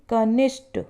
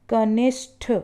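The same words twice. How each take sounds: No difference in how they are said.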